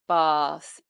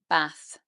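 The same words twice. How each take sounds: First: The vowel is long, in a southern British accent. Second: The vowel is short, in a northern English accent. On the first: "in the standard Southern British accent, we say it long" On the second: "in the north of England... they will say it short"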